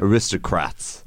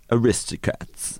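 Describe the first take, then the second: First: "Aristocrats" slowly, with the r in the last syllable; corrected word. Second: "Aristocats" with the r dropped from the last syllable; slip of the tongue. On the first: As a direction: say "Aristocrats" slowly, ending in -crats. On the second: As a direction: say "Aristocats", ending in -cats instead of -crats. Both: Real, not acted. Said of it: "oh, did I say Aristocats?".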